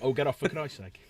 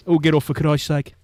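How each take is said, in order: First: Brummie grumble at an ordinary volume; understated repeat of a Birmingham accent. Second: Loud Brummie grumble; hammed-up Birmingham accent, loud. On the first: Acted. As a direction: toss off the punchline in a Brummie accent. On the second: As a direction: belt out the punchline in a broad Brummie accent. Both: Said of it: "for the Brummie accent".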